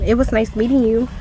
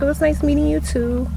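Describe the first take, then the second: First: Said in the usual way. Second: Higher, sweeter mock cop voice; imitating the cop. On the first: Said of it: "And I was like". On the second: The cop politely replying, in a higher mock voice. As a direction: lift it up like the polite officer. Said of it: "And she was like".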